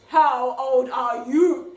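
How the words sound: It is said in a deep, growly voice.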